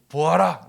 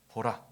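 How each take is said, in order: First: Loud, emphatic 보아라; forceful command. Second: Said in the usual way. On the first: Shown as a demonstration. Jesus commanding the blind man to see, forceful command. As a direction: pronounce 보아라 as a strong order.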